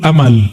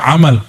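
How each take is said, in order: First: It begins with a plain glottal stop. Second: It begins with a throaty pharyngeal sound. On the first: It means hope or wishful thinking. "Tulul amal pakai hamzah" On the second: It means a deed. "bukan amal"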